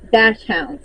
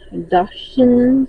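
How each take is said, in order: First: The word sounds like 'dash hounds'. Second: The word does not sound like 'dash hounds'. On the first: The speaker calls it wrong. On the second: The speaker calls it right.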